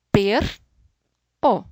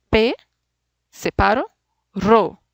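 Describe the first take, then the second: First: "per, o", with the r held on the first syllable and a pause; the wrong "per" then "o" split. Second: "P, separo, ro", with a pause before the "ro" syllable; "ro" said as one clean syllable; syllables split right. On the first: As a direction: break it badly into "per" and "o". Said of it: "No estoy pronunciando la palabra correcta". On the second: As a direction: split it as "P" then "ro". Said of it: "Conseguí un sonido". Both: Shown as a demonstration.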